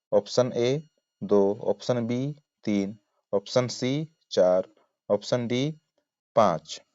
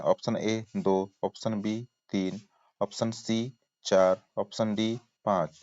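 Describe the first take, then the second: The two takes are said the same way.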